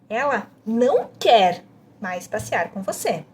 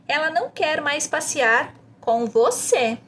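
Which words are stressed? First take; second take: não quer; com você. First: The emphasis falls on "não quer". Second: The emphasis falls on "com você". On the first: "A segunda ênfase é em não quer" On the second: "você enfatiza com você no final"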